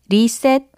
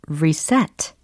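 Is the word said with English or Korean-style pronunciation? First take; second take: Korean-style; English. First: It is said with flat Korean-style syllables. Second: It is said with natural English pronunciation. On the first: The speaker calls it wrong. "리셋 아니고" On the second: The speaker calls it right. "리셋 아니고 reset"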